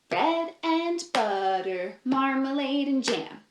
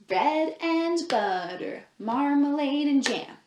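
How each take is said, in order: Both takes have the same delivery.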